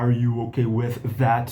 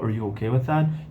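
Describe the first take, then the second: First: The word are is said in its full form. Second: The word are is reduced to a short er. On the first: The speaker calls it wrong. "para que, que eu vou falar" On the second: The speaker calls it right. "Reduzi ele para er"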